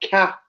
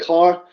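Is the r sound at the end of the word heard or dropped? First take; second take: dropped; heard. First: The final r sound is dropped. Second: The final r sound is pronounced. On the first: "we pronounce it like ca" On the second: "people say car"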